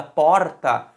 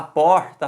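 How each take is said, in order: First: "porta" with a second regional way of saying the R; other regional R. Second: "porta" with one regional way of saying the R; regional R variant. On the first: Teacher comparing accents for students, "porta" with the other R. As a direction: say "porta" in another accent's R, stress kept on "por". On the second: Teacher showing accent doesn't matter, "porta" with a regional R. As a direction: say "porta" in one accent's R, stress kept on "por". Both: Shown as a demonstration. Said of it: "E aqui, independentemente de sotaque".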